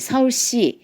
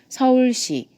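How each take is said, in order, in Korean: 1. s 소리는 바람이 새면서 쉭쉭거려요. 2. s 소리는 깨끗한 s 소리예요. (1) "이렇게 새는 소리가 나는" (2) "뒤에 있어야 돼요"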